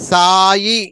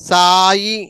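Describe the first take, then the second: The two takes are said the same way.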